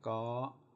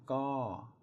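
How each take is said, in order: First: The syllable is said with a high tone. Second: The syllable is said with a falling tone. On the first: "My three is a high tone" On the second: "My to is a falling tone"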